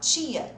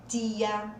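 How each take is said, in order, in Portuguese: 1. O primeiro som é como ch. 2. O primeiro som é um t simples. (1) "Quem já tem o sotaque e fala tia, tio, é esse som" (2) "Agora quem fala leite, tia, aí não é esse som"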